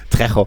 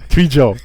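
First: The middle consonant is a throaty 'ch' sound. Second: The middle consonant is a soft 'y' sound. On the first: The speaker calls it right. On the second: The speaker calls it wrong. "Ich darf nicht mehr Trejo sagen"

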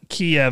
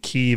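First: The name is said the Russian way. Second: The name is said the Ukrainian way. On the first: "Kiev is like the Russian pronunciation for it" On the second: "Kyiv is the Ukrainian pronunciation"

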